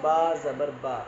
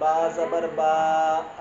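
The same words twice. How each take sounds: First: The final vowel is kept short. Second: The final vowel is drawn out long. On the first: The speaker calls it right. "ऐसा पढ़ना है, खींच के नहीं पढ़ना" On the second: The speaker calls it wrong. "ऐसा नहीं"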